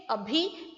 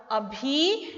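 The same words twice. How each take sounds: First: अभी with a short, quick final I; short final vowel. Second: अभी with a long, stretched final EE; long final vowel. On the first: Teacher contrasts near with now, short-ended अभी. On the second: Teacher explains बड़ी ई मात्रा, long-ended अभी. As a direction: hold the ending of अभी as a long ई. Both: Shown as a demonstration. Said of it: "इसमें बड़ी की मात्रा है".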